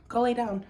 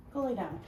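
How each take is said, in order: First: Louder and higher, firm order to the dog; firm command to dog. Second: Calm command to a dog; telling dog off. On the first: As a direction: tell the dog off, firmly. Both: Real, not acted. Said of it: "I'm just telling my dog to go lay down".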